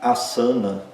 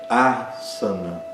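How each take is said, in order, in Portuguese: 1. O primeiro A é curto e fraco. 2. O primeiro A é longo, forte e aberto. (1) "não é asana" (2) "O primeiro A é forte, é longo, é aberto"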